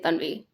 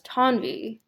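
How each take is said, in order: First: It has a Hindi dental consonant and vowel. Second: It has an American T and a different vowel. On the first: This is the original name. "people can't really say Tanvi anymore" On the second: This is the adapted name used in the United States. "So the vowel sound is completely different now"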